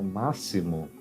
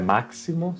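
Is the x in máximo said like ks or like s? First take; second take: s; ks. First: The x sounds like s. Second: The x sounds like ks. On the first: The speaker calls it right. "como se fosse uma S" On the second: The speaker calls it wrong. "não é máximo"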